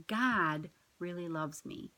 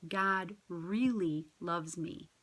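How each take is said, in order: First: Slow, with God leaned on first; stress on GOD. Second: Slow, with really lifted; stress on REALLY. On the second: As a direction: press on "really", slow and deliberate. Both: Shown as a demonstration. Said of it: "we put emphasis on different words each time".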